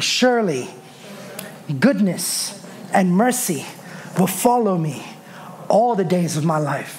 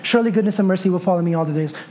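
First: It is said slowly with a pause after surely. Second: It is rushed through with no pauses. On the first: The words are said with confidence. The speaker calls it right. "Surely, pause for a second" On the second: The words are read without thought. The speaker calls it wrong. "So many of us skip through that verse"

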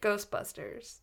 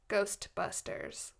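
First: The word is said loosely, with sounds reduced. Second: Every sound of the word is clearly articulated. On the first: "Usually I'm like" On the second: "I said that with, like, perfect enunciation"

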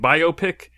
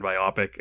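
First: It is said as bio-pic, not rhyming with myopic. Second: It is said bi-OP-ic, rhyming with myopic. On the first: "biopic makes sense" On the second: "I've always said biopic"

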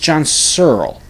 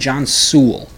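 First: The surname is said as one syllable, like Searle. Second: The surname is said with two syllables, like Sewell. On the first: The speaker calls it right. "It's John Searle" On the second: The speaker calls it wrong. "I kept saying John Sewell"

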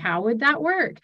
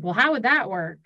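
First: It sounds curious and open. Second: It sounds accusatory and dismissive.

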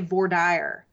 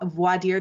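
First: It is said with a Texas pronunciation. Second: It is said with a general American pronunciation.

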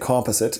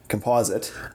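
First: It is pronounced the Canadian way. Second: It is pronounced the American way. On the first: "Canadians say composite" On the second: "Americans say composite"

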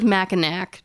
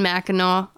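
First: The word ends with a clear final k sound. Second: The word ends in an 'aw' sound, no final k. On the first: The speaker calls it wrong. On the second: The speaker calls it right.

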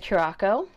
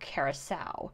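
First: The word is said in a shortened form. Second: The word is said in its full form. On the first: The speaker calls it wrong. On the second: The speaker calls it right.

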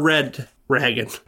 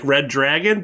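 First: It sounds like the words red ragged. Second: It sounds like the words red dragon. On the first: This is another literal reading of the spelling. "It's either Reed Dragon or Red Ragged" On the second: This is the intended reading of the name. "It's supposed to be like Red Dragon, but that's only one D"

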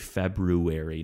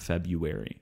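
First: The first r after Feb is pronounced. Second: The first r is dropped, Feb-u-ary. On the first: "trying to tell me to say February" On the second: "I'm saying Feb-U"

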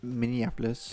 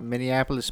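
First: It is said in the speaker's ordinary accent. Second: It is said in a put-on Midwestern accent.

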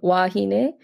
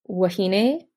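First: The first vowel is long. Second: The first vowel is short. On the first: It refers to two or more women. "is like two women" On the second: It refers to one woman. "that means like a single woman"

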